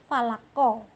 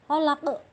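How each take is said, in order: First: The word ends with a short vowel. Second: The word ends on a stopped, bouncing q. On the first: This is how it is written. "Tulisannya falako ya" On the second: This is how it is read at the end of a verse. "akhir kalimat dimatikan maka menjadi falaq"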